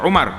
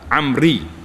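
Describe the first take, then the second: First: It starts with u and ends in ar. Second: It starts with a and ends in ri. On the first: The speaker calls it wrong. "jangan baca Umar" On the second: The speaker calls it right. "dia baca Amri"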